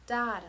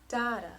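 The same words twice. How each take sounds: Both takes have the same delivery.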